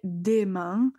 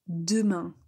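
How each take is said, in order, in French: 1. La première voyelle est un son « ay » clair. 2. La première voyelle est un son schwa faible. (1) "vous n'allez pas prononcer des mains" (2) "utiliser, disons, le E muet"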